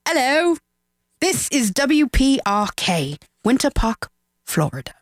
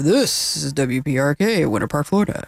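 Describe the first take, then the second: First: It is said in an English accent. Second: It is said in an American radio voice.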